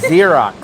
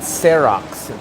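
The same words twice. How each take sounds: First: The word begins with a Z sound. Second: The word begins with an S sound. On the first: The speaker calls it right. "Pronounced with a Z" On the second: The speaker calls it wrong. "not an S"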